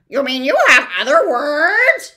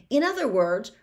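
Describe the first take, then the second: First: High, loud gleeful bird; happy cry. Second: Said in the usual way. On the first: Acted. The bird snatches Milo's words, gleefully loud and high. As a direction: pounce on his words with delight. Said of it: "cried the bird happily".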